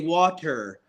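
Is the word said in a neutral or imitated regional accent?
neutral. It is said in a neutral standard accent. The speaker calls it right. "So I speak proper. I say water"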